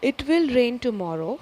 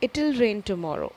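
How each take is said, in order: First: Will is said as a separate full word. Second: Will is reduced to a short attached 'll.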